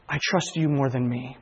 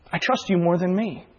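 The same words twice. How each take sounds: First: Quiet prayer. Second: Said in the usual way. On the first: Retold or imitated. Repeated prayer line.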